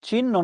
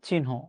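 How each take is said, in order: First: It uses the common everyday pronunciation. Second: It uses the standard dictionary pronunciation. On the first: The speaker calls it wrong. "চিহ্ন না" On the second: The speaker calls it right. "এটার উচ্চারণ হচ্ছে চিহ্ন"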